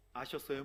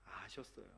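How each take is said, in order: First: "아셨어요?" asked with a clear rising tune; asking "did you know". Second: "아셨어요." said as a falling, much softer statement; settling it. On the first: Pastor quizzing the congregation, "아셨어요?" as a rising question. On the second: Pastor answering his own question, "아셨어요." falling and soft. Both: Shown as a demonstration. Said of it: "모르셨어요?".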